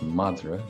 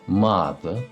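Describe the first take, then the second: First: The middle consonant is an r sound. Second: The middle consonant is an l sound. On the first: "The word for dog is madra" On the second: "It's pronounced madla in Connacht"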